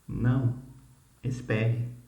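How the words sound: There is a pause after 'não'.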